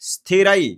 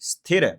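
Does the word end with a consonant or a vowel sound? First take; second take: vowel; consonant. First: The word ends with a clear 'ai' vowel. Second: The word ends with a bare 'r' consonant. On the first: The speaker calls it right. "स्थिरई स्थिरई स्थिर नहीं" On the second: The speaker calls it wrong. "स्थिर नहीं"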